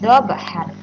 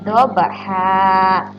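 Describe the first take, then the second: First: The word ends with an n sound. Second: The word ends with a lengthened vowel. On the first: The speaker calls it wrong. "Tidak dobhan lagi ya" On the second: The speaker calls it right. "Baca panjang satu alif atau dua harokat"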